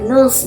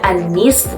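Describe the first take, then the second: First: The word is said in a short, light form. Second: The word is said in its full form. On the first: This is how Arabs casually say it. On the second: This is the standard form of the word.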